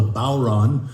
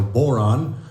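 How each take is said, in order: First: "bodhrán" said as BOW-ron, with a silent D; most common pronunciation. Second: "boron" said as BORE-on, first vowel a plain "or"; alternative pronunciation. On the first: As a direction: say "bodhrán" with a first syllable like "bow" of a ship. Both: Shown as a demonstration. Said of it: "heard it pronounced a few different ways".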